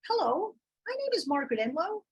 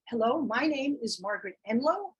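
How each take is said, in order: First: The voice is pitched high. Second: The voice is pitched low.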